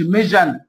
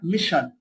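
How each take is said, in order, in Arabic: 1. الحرف الأوسط صوت zh مجهور. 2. الحرف الأوسط صوت sh مهموس. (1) "ما اقولش ميجن" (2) "هنا اسمها ميشن"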